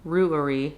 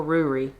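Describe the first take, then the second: First: "Ruari" said as roo-uh-ree; "Ruari" with an uh between roo and ree; three-syllable Ruari. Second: "Ruri" said as roo-ree; "Ruri" with no uh in the middle; shortened Ruri. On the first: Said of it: "roughly three syllables". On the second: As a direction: give "Ruri" just two syllables. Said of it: "typically pronounced". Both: Shown as a demonstration.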